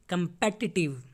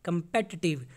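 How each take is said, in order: Both takes have the same delivery.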